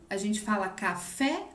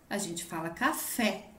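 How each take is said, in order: Both takes have the same delivery.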